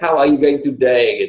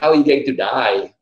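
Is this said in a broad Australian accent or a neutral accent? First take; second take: neutral; Australian. First: It is said in a neutral, non-Australian accent. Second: It is said in a broad Australian accent. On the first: This is what the question actually meant. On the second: This is how it was actually asked, sounding like 'to die'. "Bahasa Australia kan slang, ... Tapi tanyanya"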